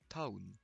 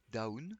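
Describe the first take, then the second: First: It starts with a sound between D and T. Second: It starts with a plain D sound. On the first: "C'est un son entre le D et le T" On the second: "c'est parfaitement entendable"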